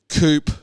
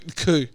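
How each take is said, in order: First: The word ends with an audible final consonant. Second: The word ends on a vowel, no final consonant. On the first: The speaker calls it wrong. "I always pronounce the V in coupe" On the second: The speaker calls it right. "which it's a coup"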